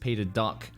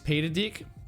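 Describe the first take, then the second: First: The surname is said with the vowel of 'duck'. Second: The surname is said with the vowel of 'dick'. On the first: The speaker calls it wrong. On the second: The speaker calls it right.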